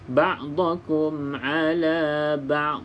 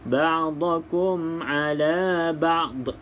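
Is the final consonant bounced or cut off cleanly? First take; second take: clean; bounced. First: The final consonant ends cleanly without bounce. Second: The final consonant ends with an echoing bounce. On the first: The speaker calls it right. "Maka tidak boleh dilantunkan" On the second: The speaker calls it wrong. "Contoh bacaan yang dilantunkan... Itu ada lantunan"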